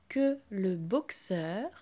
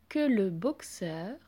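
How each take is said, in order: Both takes have the same delivery.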